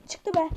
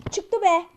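First: Said in the usual way. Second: Frustrated shout. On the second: Real, not acted.

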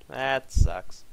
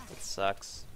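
First: "That sucks" said out loud, a bit louder and stronger; louder complaint. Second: "That sucks" breathed out as a whisper; whispered disappointment. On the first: Player let down by the play, complaining "That sucks" aloud. Repeated louder after whisper. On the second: Player let down by the play, whispering "That sucks". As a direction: mutter "That sucks" under your breath, voiceless. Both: Real, not acted.

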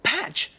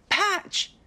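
First: High call after a runaway dog; first call, high but not shouted. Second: Even higher, rising call across the park; second call, pitched way up, rising at the end; calling louder. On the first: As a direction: call the dog's name, higher. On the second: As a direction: call again, more urgent and higher. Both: Acted. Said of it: "Oliver called".

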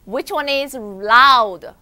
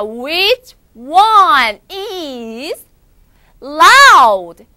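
First: Said in the usual way. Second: Slow, building to a shout on "loud"; loud model phrase. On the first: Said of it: "소리 크게 질러볼까요?". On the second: Shown as a demonstration. Teacher getting pupils to speak up, loud and slow. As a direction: draw it out and belt the last word. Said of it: "자, 크게 해보자".

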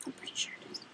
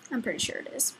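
First: Soft whispered aside; whispering. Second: Said in the usual way. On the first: Real, not acted. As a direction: whisper it to yourself. Repeats herself, then whispers it.

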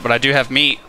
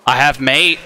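First: Said in the usual way. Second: "mate" said with an ay vowel, like the word mate instead of meat; odd pronunciation. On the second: Real, not acted. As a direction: say "I have mate" with "mate" rhyming with late. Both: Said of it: "I don't know why I said it like that".

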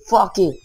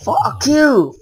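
First: Said in the usual way. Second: Higher angry yell at the screen; real rage, shouted out. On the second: Real, not acted. Cursing at the game.

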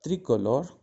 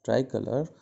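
First: Tricolore said the French way, rolled r, stress on the end. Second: Said in the usual way. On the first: Shown as a demonstration. Teacher says the French word for the class first, then Tricolore in French. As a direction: give Tricolore its French sound, tri-ko-LOR.

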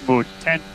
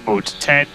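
The two takes are said the same way.

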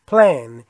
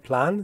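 First: Plan drawn out as "pleh-an"; slow American "plan", vowel gliding from e to a. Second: Plan with a single pure "a", British style; British "plan", plain open a; British A sound. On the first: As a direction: say "plan" with e and a stuck together, American style. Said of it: "یه صدای ا". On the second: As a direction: say "plan" with an unglided short a. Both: Shown as a demonstration.

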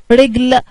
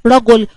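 First: "رجل" as "rigl", i then no vowel; kasra and sukun. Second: "رجل" as "ra-gul", a then u; fatha and damma. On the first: Teacher contrasting same spelling, "رجل" voweled as slow "rigl". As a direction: say "رجل" slowly as one syllable, "rigl". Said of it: "الراء تحتيها كسرة والجيم عليها ايه؟". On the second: Teacher contrasting same spelling, "رجل" voweled as "ragul". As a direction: say "رجل" in two syllables, "ragul". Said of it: "بس التشكيل مختلف". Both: Shown as a demonstration.

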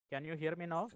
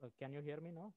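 First: Speaking up louder; louder into the mic. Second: Said in the usual way. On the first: Real, not acted. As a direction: raise the voice so the mic picks it up. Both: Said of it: "That's better".

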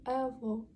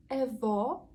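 First: ЕВО with a narrowed, closer final O; half-closed O. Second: ЕВО with a wide open stressed O. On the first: Teacher gives the grandfather word, ЕВО with closed O. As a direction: round and close the last vowel of ЕВО. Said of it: "Воно призакрите буде". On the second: Teacher compares grandmother with grandfather, ЕВО with open O. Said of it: "Відкритий звук". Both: Shown as a demonstration.

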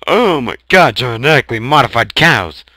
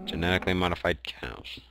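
First: Loud, fast, high excitement; excited shout. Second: Quiet deadpan. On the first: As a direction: blurt it out thrilled. Repeats with excitement. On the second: Repeats flatly, quietly. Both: Real, not acted.

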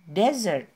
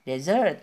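First: "Desert" with the first syllable DE loud and falling; stress on desert first syllable. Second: "desert" said with the stress on the second syllable; wrong stress on desert. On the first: Teacher contrasting desert with dessert for learners. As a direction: hit DE hard in "Desert", then drop. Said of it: "penekanannya ada di suku kata pertama". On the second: Teacher showing the mistaken stress on desert. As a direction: put the weight on the end of "desert", the wrong way. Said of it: "bukan, tapi desert". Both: Shown as a demonstration.

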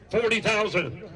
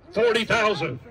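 The two takes are said the same way.

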